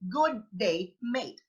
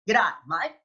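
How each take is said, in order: First: Both words of the greeting are said in full. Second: The greeting is shortened into one quick syllable. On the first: "most likely we are going to say good day, mate" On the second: "They say g'day, mate"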